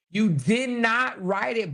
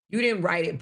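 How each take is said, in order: First: "did not" higher, slowed, each word separate; stressed DID NOT. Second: Said in the usual way. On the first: Real, not acted. Host scolding the quote thief, "did not" slow and emphatic.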